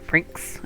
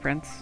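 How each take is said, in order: First: The word ends with a hard 'ks' sound. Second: The word ends with a soft 's' sound. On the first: The speaker calls it wrong. "with like a hard sound" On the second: The speaker calls it right. "it's just like the regular Prince"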